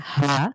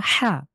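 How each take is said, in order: First: হা from the middle of the throat, as Arabic ح; হা as a throaty Arabic ح. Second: হা from the start of the throat, as a light ه; হা as a light Arabic ه. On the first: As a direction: push হা from mid-throat. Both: Shown as a demonstration. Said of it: "আমি কণ্ঠ থেকে চলে যাচ্ছি কণ্ঠের মাঝখান থেকে কণ্ঠের শুরুতে".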